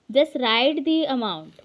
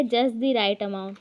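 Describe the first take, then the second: First: Very slow and a bit louder; slow wrong example. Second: Spaced out slowly, word by word; slow dictation. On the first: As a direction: spell out the wrong order slowly. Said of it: "ऐसा sentence नहीं बनता". (गलत क्रम बहुत धीरे) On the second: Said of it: "फिर क्या है?". (धीरे धीरे बोलकर) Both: Shown as a demonstration.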